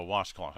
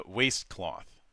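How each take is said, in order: First: "washcloth" said as wash-cloth, short A; "washcloth" with a "wash" sound; corrected word. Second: "waistcloth" said as waist-cloth, long A; "waistcloth" with a "waist" sound; misspoken word. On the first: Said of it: "I don't know why I said waistcloth". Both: Real, not acted.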